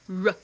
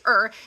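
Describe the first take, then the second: First: The R sound is said with no vowel. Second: The R sound has a vowel before it. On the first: The speaker calls it right. "it says r, like rose" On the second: The speaker calls it wrong. "R does not say er"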